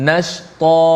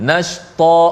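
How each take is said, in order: No difference in how they are said.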